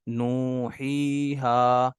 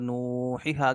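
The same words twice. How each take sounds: First: The middle vowel is held long. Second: The middle vowel is cut short. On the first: The speaker calls it right. "तीनों को जो है वो बराबर लंबा करना है" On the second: The speaker calls it wrong. "क्योंकि या को आपने स्किप कर दिया"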